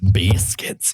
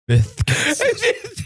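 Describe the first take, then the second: First: The word is said plainly without a lisp. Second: The word is said with a lisp. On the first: The speaker calls it wrong. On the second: The speaker calls it right.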